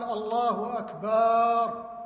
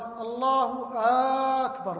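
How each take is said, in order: First: The vowel after b is stretched. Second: The opening a of the second word is stretched. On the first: The meaning is distorted. "مد الباء" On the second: Is God greater? "مد الهمزة في أكبر"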